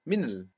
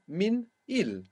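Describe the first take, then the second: First: The small i is dropped, giving one syllable. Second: The small i is pronounced, giving two syllables. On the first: "a small I disappearing" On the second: "the small I of il"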